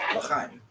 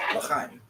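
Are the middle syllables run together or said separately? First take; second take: run together; run together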